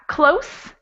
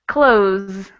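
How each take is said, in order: First: It ends in a voiceless hissing s sound. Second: It ends in a voiced buzzing z sound. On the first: It means near. "the first one would be a voiceless S sound" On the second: It means to shut. "the second one has voice. ... it sounds like a Z"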